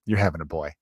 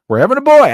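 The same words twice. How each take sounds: First: Low, quiet retold pronouncement; matter-of-fact certainty. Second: High, loud excited echo; excited announcement. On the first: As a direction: state it low and softly, as settled fact. Retelling woman's sure prediction. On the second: Retold or imitated. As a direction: burst out with it, high and loud, utterly convinced. Echoing her prediction, fully convinced.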